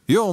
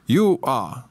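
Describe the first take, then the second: First: The words merge into one short syllable. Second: Two full words are said separately.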